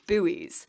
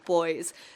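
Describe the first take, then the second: First: It is said the American way, like 'boo-eez'. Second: It is said in the speaker's own way, like 'boys'.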